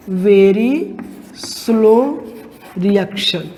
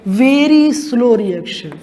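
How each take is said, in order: First: Very slow reaction said one word at a time with long pauses between; spaced, word by word. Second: Stretched slow. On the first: Teacher to students repeating the term, word by word. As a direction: dictate very, then slow, then reaction, each on its own. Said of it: "क्या?". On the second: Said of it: "दूसरी type की reaction क्या होती है?". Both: Shown as a demonstration.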